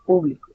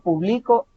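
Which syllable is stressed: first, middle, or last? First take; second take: first; last. First: The stress is on the first syllable. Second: The stress is on the last syllable. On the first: It names a group of people. "con la tilde en la U" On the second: It is an action in the past. "con un acento en la O hasta el final"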